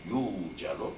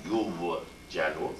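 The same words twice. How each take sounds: First: "yujalu" as yoo-ja-lu, no w heard; "yujalu" with the w melted into a long u; long smooth u. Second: "yujalu" as yu-wu-jalu, with an audible w; slow, drawn-out "yujalu" with w pronounced after yu; w glide sounded. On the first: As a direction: hold the "yu" in "yujalu" as one pure long oo. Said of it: "but yujalu". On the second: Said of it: "not yujalu". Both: Shown as a demonstration.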